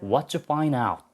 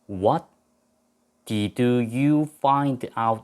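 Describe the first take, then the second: First: The did is dropped, leaving what you. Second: Every word including did is fully pronounced. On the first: "원어민들이 ... 축약을 해가지고 what you라고 합니다" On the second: "원래 우리가 무엇을 알아냈습니까? 라고 질문할 때는"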